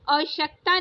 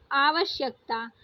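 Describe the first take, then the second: First: आवश्यकता squeezed, losing a syllable; wrong shortened form. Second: आवश्यकता with every syllable given; correct full form. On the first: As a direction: say आवश्यकता as "au-shyak-taa". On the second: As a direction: say आवश्यकता as "aa-va-shyak-taa". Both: Shown as a demonstration. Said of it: "आवश्यकता नहीं".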